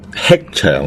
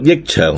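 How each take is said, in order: First: The first syllable sounds like hek. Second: The first syllable sounds like yik. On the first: "可以读吃长" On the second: "可以读益长"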